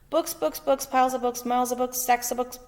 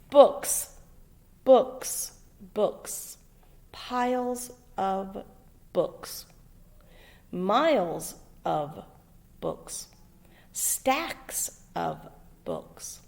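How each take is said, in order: First: It is read straight through without breath pauses. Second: It is read with short breath pauses between sentences. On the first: The sentences run together and make no sense. The speaker calls it wrong. "it just goes and goes and goes and goes. I never get to take a breath" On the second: Each sentence ends clearly and can be understood. The speaker calls it right. "this is how it should sound"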